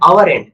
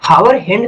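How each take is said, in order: First: The first word begins with a vowel sound. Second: The first word begins with an H sound. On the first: The speaker calls it right. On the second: The speaker calls it wrong. "हावर नहीं बोलेंगे"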